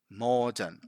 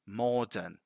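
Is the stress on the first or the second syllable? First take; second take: first; first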